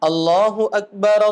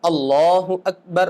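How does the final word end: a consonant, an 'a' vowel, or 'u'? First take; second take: a vowel; consonant. First: The last word ends with an added 'a' vowel. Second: The last word ends on a bare consonant. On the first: "मिलाते वक्त उसको जबर देंगे" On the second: "हर कलिमे को साकिन करना सुन्नत है"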